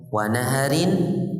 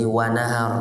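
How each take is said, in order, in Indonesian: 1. Kata ini berakhir dengan bunyi "-in". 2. Kata ini berakhir dengan "r" tanpa "-in".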